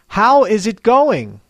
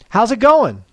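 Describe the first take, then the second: First: It is said slowly and clearly, word by word. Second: It is said quickly with natural linking and intonation. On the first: "I will say each slang expression slowly and clearly" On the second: "I'll say the same expression at natural speed and with natural intonation"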